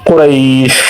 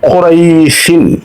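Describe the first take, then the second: First: The word stops on the final consonant. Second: The word ends with the full '-in' syllable.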